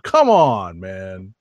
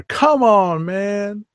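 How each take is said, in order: First: Drawn-out come on man. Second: High, hyped come on man. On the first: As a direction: call it like a radio host. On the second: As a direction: belt it like the radio host. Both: Retold or imitated. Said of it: "I sound like [name]".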